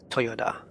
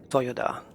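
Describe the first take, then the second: The two takes are said the same way.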